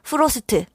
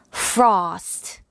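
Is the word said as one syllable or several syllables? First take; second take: several; one. First: Vowels are inserted, making several syllables. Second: The consonants link into a single syllable. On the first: The speaker calls it wrong. "프로스트 ... 라고 하지 않을 거예요" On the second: The speaker calls it right. "한 번씩만 성대를 울려서 단 한 번에 한 단어씩"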